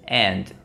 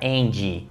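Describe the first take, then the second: First: The word ends cleanly on the D sound. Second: An extra vowel sound follows the final D. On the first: The speaker calls it right. "É um leve som de D" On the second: The speaker calls it wrong. "colocarem o som de vogal, um som de I"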